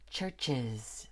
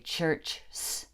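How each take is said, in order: First: The word ends with an added iz syllable. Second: The word ends with a bare s sound. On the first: The speaker calls it right. "We have to say churches" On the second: The speaker calls it wrong. "It just doesn't work to say church s"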